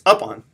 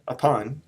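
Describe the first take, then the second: First: The stress is on the first syllable. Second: The stress is on the second syllable. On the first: The speaker calls it wrong. "What if we put the stress on the first part of the word" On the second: The speaker calls it right. "I'm not emphasizing up. I'm emphasizing on"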